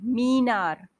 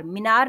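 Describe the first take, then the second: First: मीनार with मी held long. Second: मीनार with a quick short मि; short i error. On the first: Teacher correcting the fashionable mistake, long मी in मीनार. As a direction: stretch the first vowel of मीनार. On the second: Teacher rejecting the wrong form, short मि in मीनार. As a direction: rush the first vowel of मीनार to मि. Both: Shown as a demonstration. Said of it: "मीनार नहीं".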